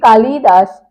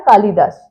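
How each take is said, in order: First: The middle syllable is pushed hard and lengthened. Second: The middle syllable is said quickly and short. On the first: The speaker calls it wrong. "हम बोलते हैं जोर लगाकर" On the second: The speaker calls it right. "जल्दी बोल देते हैं"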